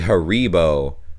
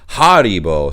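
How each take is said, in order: First: It is said with the English stress pattern. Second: It is said with the German stress pattern. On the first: "We say Haribo" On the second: "but they say Haribo. So their emphasis is on the R"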